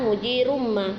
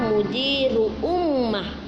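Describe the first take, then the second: First: The words run together without a glottal stop. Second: A glottal stop separates the two words. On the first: The verse drops the hamzah to fit the metre. "tadi yang digaris bawahi adalah mujirumma" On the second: This is the original form of the phrase. "itu kalau yang sebenarnya"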